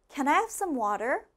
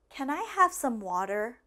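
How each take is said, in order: First: It is said at a faster pace. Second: It is said at a normal, slower pace.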